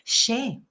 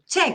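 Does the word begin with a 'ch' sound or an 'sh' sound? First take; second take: sh; ch. First: It begins with an 'sh' sound. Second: It begins with a 'ch' sound. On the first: The speaker calls it wrong. "dicen che con X, eh, tendríamos que decir che" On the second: The speaker calls it right. "esa no es nuestra pronunciación"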